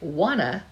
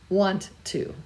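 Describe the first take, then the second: First: The two words blend into one reduced form. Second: Both words are said fully with a clear t. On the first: The speaker calls it wrong. "the amount of effort required to say wanna" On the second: The speaker calls it right. "the more correct want to"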